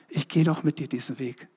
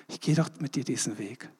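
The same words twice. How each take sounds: First: Said in the usual way. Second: Softer repeat. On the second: Retold or imitated. Jesus promising the believer, hushed and tender. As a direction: drop to a soft, hushed repeat.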